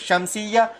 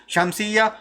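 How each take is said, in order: The two takes are said the same way.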